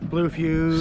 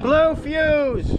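First: It is said quietly. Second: It is said loudly.

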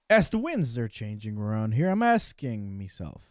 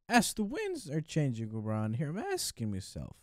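First: It is read in the speaker's plain accent. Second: It is read in an attempted Irish accent.

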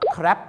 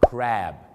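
First: The vowel is cut short and quick. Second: The vowel is drawn out long and low. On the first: It sounds like the word for waste. The speaker calls it wrong. "ออกเสียงสั้นๆว่า" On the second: It means the sea animal. The speaker calls it right. "ออกเสียงลากยาวต่ำนิดนึง"

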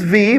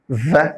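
First: It is said as the full letter name. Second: It is said as the bare consonant sound. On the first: "the letter is V" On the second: "but the sound is V"

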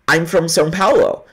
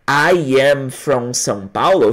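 First: The words run together quickly as one. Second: Each word is said separately and slowly. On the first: "Olha como fica mais rápido" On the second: "no escrito ali seria"

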